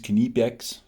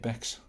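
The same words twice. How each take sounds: First: The initial K is pronounced before the n. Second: The initial K is silent, starting with n. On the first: This is the German way of saying it. "the correct pronunciation is Knipex, as the Germans say" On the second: This is the British way of saying it. "we're British and it comes with Sal and K"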